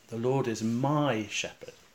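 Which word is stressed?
my. The stress is on the word my. The Lord is the shepherd of me personally. "place the emphasis on the word my"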